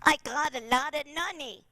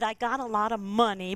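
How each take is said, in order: First: The last word begins with an N sound. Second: The last word begins with an M sound. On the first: "we're just going to use an N" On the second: "suppose we said I got a lot of money"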